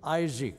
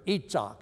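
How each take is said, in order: First: The name is said in its English form. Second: The name is said in its Hebrew form. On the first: "a guy named Isaac" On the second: "as they would pronounce it in Israel"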